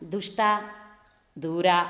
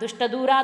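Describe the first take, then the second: First: The word is split with a pause inside. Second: The word is said joined, without a pause. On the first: The intended meaning of the chant is lost. The speaker calls it wrong. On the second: It means the one who drives away evil. The speaker calls it right.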